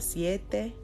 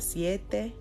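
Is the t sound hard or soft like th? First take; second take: soft; soft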